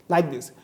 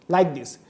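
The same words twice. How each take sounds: The two takes are said the same way.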